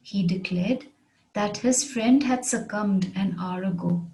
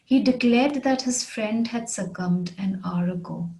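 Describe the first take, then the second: First: Measured, with a pause after "declared"; careful repeat, phrase by phrase; phrased model repeat. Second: Said in the usual way. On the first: Shown as a demonstration. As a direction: break it into careful phrases for learners. Example repeated in phrases for learners.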